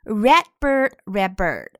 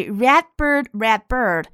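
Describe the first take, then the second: First: "red bird" with the D of "red" unreleased. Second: Said in the usual way. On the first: Shown as a demonstration. Teacher shows lost plosion, D in "red" unreleased. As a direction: shape the D in "red" without a burst, straight into "bird". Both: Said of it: "red的D可以失去爆破".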